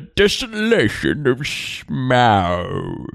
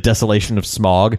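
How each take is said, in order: First: The last word does not sound like 'smog'. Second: The last word sounds like 'smog'. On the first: The speaker calls it right. "don't you mean" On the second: The speaker calls it wrong. "when they're talking about"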